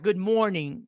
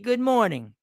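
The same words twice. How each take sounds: First: It is said in a sad, mournful way. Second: It is said in a bright, cheerful way. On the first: The speaker calls it wrong. "not good morning like mourn" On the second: The speaker calls it right. "We say good morning"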